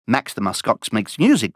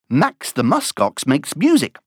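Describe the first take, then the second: First: The phrase is spoken at a very fast pace. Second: The phrase is spoken at a fast pace. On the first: "Encore plus vite!" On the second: "Allez, plus vite!"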